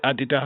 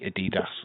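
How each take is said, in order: First: It is pronounced the way Germans say it. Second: It is pronounced the way Americans say it. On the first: The speaker calls it right. "The Germans call it Adidas" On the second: The speaker calls it wrong. "You say Adidas"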